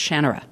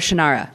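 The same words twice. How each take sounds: First: It is said the way the name is meant. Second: It is said the way most Americans say it. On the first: The speaker calls it right. "because it's Shannara" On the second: The speaker calls it wrong. "like everybody else in the United States"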